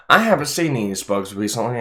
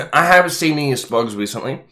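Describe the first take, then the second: First: Chewing popcorn while talking; mouth full. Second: Laughing. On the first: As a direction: talk through a mouthful. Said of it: "I have my mouth full". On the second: Repeats while laughing. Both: Real, not acted.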